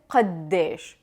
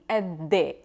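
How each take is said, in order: First: The word keeps its initial q sound. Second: Both the initial q and final sh are dropped. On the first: "pronouncing the qa at the beginning" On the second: "they will drop the qaf and the sheen at the end"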